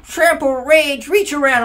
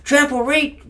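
First: Much higher, loud and slowed right down; slow mocking keyword list. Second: Much higher, loud sneering listing; mocking keyword list. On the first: Mocking the card rules to a friend, slow and sneering. Same, drawn out. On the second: Mocking the card rules to a friend, high and sneering. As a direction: rattle it off like a smug card.

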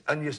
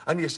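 No difference in how they are said.

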